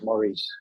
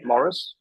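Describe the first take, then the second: First: The name is said like Maurice. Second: The name is said like Morris. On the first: "or is it Maurice" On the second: "is that my Australian accent?"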